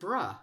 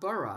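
First: The ending is said as one short syllable. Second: The ending is said as two syllables. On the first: The speaker calls it right. "it's more often bruh" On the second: The speaker calls it wrong. "not burrah"

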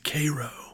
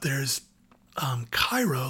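First: Pronounced the local Georgia way. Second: Pronounced like the Egyptian city's name. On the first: This is how the locals say the town's name. "but they pronounce it Cairo" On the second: This is the usual name of the foreign city. "like the city in Egypt"

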